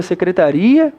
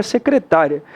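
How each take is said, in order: First: "secretaria" stressed on the RI, ri-a as two syllables; "secretaria" as se-cre-ta-RI-a. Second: "secretária" stressed on the TA, short final ria; "secretária" as se-cre-TA-ria. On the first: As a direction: lean on RI in "secretaria". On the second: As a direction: lean on TA in "secretária". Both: Shown as a demonstration. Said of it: "existe a diferença da palavra".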